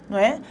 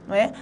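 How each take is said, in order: Both takes have the same delivery.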